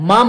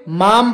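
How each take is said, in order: First: "माम" the Kumaoni way, shorter vowel; Kumaoni pronunciation. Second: "माम" read as in Hindi, long full vowel; read as written. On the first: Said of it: "इसका उच्चारण माम नहीं होता". ("माम" कुमाऊनी ढंग से, छोटा) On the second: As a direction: say "माम" just as spelled, drawing out the aa. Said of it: "normally पढ़ोगे तो क्या पढ़ोगे". ("माम" जैसा लिखा, लंबे आ से) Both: Shown as a demonstration.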